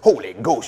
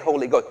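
First: It is said forcefully, with big energy. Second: It is said flatly, without force.

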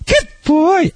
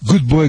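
First: It is said in a high, happy voice. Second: It is said in an ordinary, flat voice. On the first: The speaker calls it right. "when you use the high pitch, you always should put emphasis on the happiness" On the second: The speaker calls it wrong. "Instead of saying"

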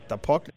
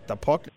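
No difference in how they are said.

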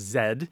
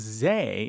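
First: The letter name ends with a d sound. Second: The letter name ends with an open vowel. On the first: "Z-E-D-E with an accent grave on the first E, so it was Zed" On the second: "it became Zay in Old French as well, Z with an acute accent on it"

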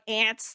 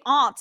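First: The word sounds like the insect ant. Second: The word does not sound like the insect. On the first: This is how other people say it. "people are like ants, like the insect" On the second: This is the speaker's own way of saying it. "It's like how I say aunt"

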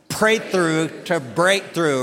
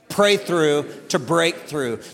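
First: The phrase is said louder with more force. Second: The phrase is said in a plain, even voice. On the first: "Let's say it again with a little bit more attitude" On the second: "Would you say that out loud with me real quick?"

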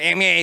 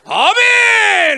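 First: It is said small and weak, like a cat. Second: It is said loud and strong.

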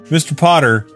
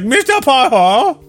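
First: It is said in a plain, normal voice. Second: It is said in a put-on caricature voice.

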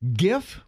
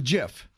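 First: The word begins with a hard G sound. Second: The word begins with a soft J sound.

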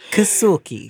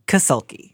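First: The name has an exaggerated foreign-sounding delivery. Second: The name is said plainly, without exaggeration. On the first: The speaker calls it wrong. "You're putting too much culture on it" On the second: The speaker calls it right. "There you go. You nailed it"

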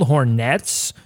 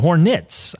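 First: The second syllable has a full 'net' vowel. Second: The second syllable is reduced to 'nit'. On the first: "Do we say it as it's spelled, exactly how it's spelled" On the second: "or is it Hornets?"

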